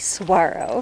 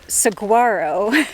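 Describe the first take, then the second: First: The G is pronounced like a W. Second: The G is pronounced as a hard G. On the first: The speaker calls it right. "the G is silent. You actually pronounce it like a W" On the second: The speaker calls it wrong. "you may be tempted to pronounce saguaro saguaro like we were"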